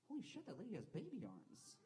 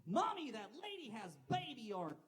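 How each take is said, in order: First: High, hushed-down astonishment; shocked inner thought. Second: Put-on high, loud child blurting it out; shouting little kid. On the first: Acted. Passenger silently noticing a lady on the train, astonished. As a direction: think it in a high, amazed voice. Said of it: "not a big enough asshole to say it out loud". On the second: Kid on a train to his mom, shouting. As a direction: call out like a tactless child. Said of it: "He shouts".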